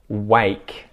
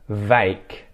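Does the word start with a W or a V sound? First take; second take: w; v. First: The word starts with a W sound. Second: The word starts with a V sound. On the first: The speaker calls it right. "five words that start with the W sound" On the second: The speaker calls it wrong. "mispronounce it with a V"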